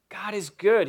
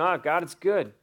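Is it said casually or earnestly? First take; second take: earnestly; casually. First: It is said earnestly, with conviction. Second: It is said casually, as a throwaway line.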